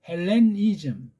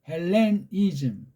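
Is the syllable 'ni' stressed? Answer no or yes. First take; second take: yes; yes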